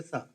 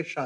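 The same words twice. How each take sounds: First: "Sa" with a plain s instead of sh; Odisha pronunciation. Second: Said in the usual way. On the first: Shown as a demonstration. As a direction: turn the sh of "Sa" into s. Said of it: "you say Sa". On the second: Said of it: "you don't say Shah".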